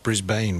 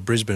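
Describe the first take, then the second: First: It is said the American way. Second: It is said the Australian way. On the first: This is how most visitors say the name. The speaker calls it wrong. "and not Brisbane, which most of you" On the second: This is how locals say the name. The speaker calls it right. "Thank goodness you called it Brisbane"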